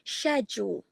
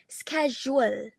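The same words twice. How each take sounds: First: The word starts with an sh sound. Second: The word starts with an sk sound. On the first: "in General British it would be schedule" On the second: "in General American, it will be schedule"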